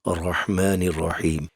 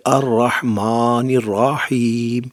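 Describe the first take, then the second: First: Said in the usual way. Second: الرحمن الرحیم with the mouth opened wide; wide mouth recitation. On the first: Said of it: "منہ کو نہیں ہلانا، grip میں رکھنا ہے". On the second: Shown as a demonstration. Teacher showing the wrong wide-mouthed recitation. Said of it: "یہ منہ نہیں کھولنا کہ".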